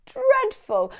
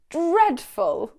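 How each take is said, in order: First: "Dreadful" flung out much higher, louder; hammed-up disgust. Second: Disgusted. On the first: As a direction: recoil in theatrical horror at "Dreadful". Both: Shown as a demonstration. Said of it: "show absolute disgust".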